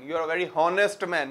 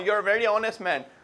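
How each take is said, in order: First: The h sound in 'honest' is pronounced. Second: The h sound in 'honest' is dropped. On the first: The speaker calls it wrong. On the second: The speaker calls it right.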